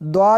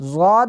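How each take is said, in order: First: The letter name begins with a d sound. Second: The letter name begins with a z sound. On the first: "और द्वाद भी पढ़ते हैं" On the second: "इसको ज़ाद भी पढ़ते हैं"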